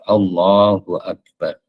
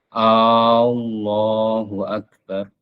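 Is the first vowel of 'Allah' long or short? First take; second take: short; long. First: The first vowel of Allah is kept short. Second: The first vowel of Allah is drawn out long. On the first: It is a plain statement, not a question. The speaker calls it right. "tidak boleh dipanjangkan hamzah di awal lafaz Allah itu. Harus" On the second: It turns the phrase into a question. The speaker calls it wrong. "Dipanjangkan itu contohnya begini, ini contoh yang salah ya"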